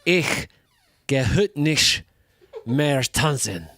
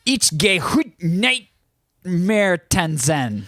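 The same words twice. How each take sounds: First: German demo. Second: A high, slow try at German; German attempt. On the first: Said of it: "It sounds like this". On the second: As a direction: ich gehe heut nicht mehr tanzen said high and drawn-out. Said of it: "give it your shot". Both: Shown as a demonstration.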